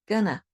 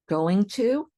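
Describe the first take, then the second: First: The words are squished into one short word. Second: Both words are said fully and separately.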